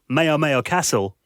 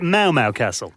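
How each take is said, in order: First: Each repeated syllable sounds like 'may-oh'. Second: Each repeated syllable sounds like a cat's meow. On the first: The speaker calls it wrong. "I got it wrong" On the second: The speaker calls it right. "like a cat, meow meow"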